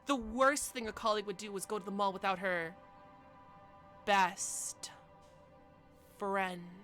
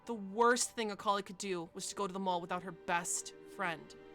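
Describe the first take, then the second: First: Best friend is said with heavy, exaggerated emphasis. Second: Best friend is said normally, without extra emphasis.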